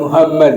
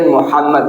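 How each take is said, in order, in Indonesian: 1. H itu bunyi h yang ringan dan biasa. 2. H itu bunyi Arab yang kuat dan dari tenggorokan. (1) "bukan Muhammad" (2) "Kalau kita ngaji kan Muhammad"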